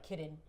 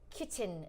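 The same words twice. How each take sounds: First: The middle T is softened, not fully pronounced. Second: The middle T is clearly pronounced. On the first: "I'm like kitten" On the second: "she pronounces her T's"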